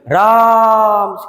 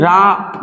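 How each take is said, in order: First: The vowel is drawn out, calling from afar. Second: The name is said short and plain.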